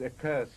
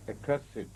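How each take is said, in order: First: "accursed" in two syllables, ending in -st; verb pronunciation. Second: "accursed" in three syllables, ending in -sid; adjective pronunciation. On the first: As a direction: say "accursed" as uh-KURST. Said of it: "when it is used as a verb". ("accursed" with a silent e, uh-KURST) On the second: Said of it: "pronounced as accursed". ("accursed" with the -ed sounded, uh-KUR-sid) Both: Shown as a demonstration.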